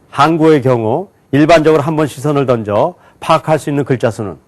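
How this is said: Words are grouped into phrases and read very fast. "묶어서 굉장히 빨리 읽었어요"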